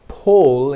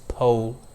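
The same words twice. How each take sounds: First: It is said with an Indian accent. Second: It is said with an American accent. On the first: "pole in Indian accent" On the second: "pole in American accent"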